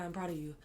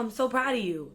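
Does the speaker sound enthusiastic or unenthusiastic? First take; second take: unenthusiastic; enthusiastic. First: It is said flatly, without enthusiasm. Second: It is said warmly, with excitement. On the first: What I do is not enough. The speaker calls it wrong. "if your parent was just like, okay, good, proud of you" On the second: When I do good things, I'm seen and celebrated. The speaker calls it right. "wow, I'm so proud of you"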